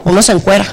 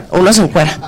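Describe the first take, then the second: No difference in how they are said.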